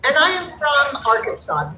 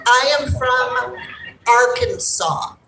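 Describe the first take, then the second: First: Said in the usual way. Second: "I am from Arkansas" said slowly, each word set apart; slow firm "I am from Arkansas"; deliberate correction. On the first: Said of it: "The Alabama joke started". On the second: Shown as a demonstration. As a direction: spell out "Arkansas" slowly so nobody mixes it up again. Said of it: "she forgot which A state I was from".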